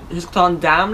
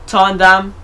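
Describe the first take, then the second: First: Said in the usual way. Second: "damn" said louder and punched; stress on damn. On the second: Shown as a demonstration. Reminding viewers to like, he leans louder on "damn". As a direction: repeat it, hitting "damn" harder.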